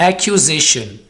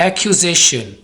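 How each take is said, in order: No difference in how they are said.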